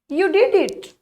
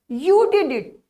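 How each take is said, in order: First: It is said in a happy, pleased tone. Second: It is said in an annoyed, disappointed tone. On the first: The speaker is pleased that it was done. "I like in happiness when we see that you did it" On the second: The speaker did not expect or want it done. "when there is a disappointment"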